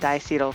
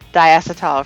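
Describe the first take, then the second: First: It is said with an American pronunciation. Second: It is said with a British pronunciation.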